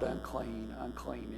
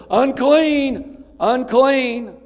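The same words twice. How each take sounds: First: Soft, hushed "Unclean, unclean," with no shout left in it; softly echoed cry. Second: High, loud repeated warning cry of "Unclean!"; leper screaming out. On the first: Preacher telling the flock the leper's cry is over, soft and hushed. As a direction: let "Unclean, unclean," fade to a murmur, the cry no longer needed. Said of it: "not gonna have to cry out". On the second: Leper warning passers-by to keep away, high loud repeated cry. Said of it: "he would have to scream out continually". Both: Retold or imitated.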